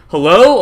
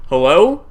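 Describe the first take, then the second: First: Loud questioning call, rising; louder call. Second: Questioning call-out, rising; tentative call. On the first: Retelling a second call to whoever is downstairs, louder call. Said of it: "a little bit louder". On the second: Retelling calling down the stairs to an intruder, questioning call. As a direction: call into the house to see who's there. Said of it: "And so I go". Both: Retold or imitated.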